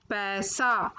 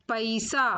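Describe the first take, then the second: First: Said in the usual way. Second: पैसा said "pa-isa"; mispronounced पैसा. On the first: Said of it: "फिर उनका शुद्ध उच्चारण". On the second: Shown as a demonstration. Teacher showing children the error, पैसा said "pa-isa". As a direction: split the ai of पैसा into two vowels. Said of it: "अशुद्ध शब्द मैंने रखे हैं".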